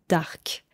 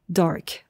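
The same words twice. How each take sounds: First: The word is said with a French pronunciation. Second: The word is said with an English pronunciation. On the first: "mais on le prononce différemment" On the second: "l'adjectif anglais"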